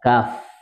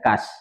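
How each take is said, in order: First: The word ends with an f sound. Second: The word ends with an s sound. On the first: The speaker calls it right. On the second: The speaker calls it wrong.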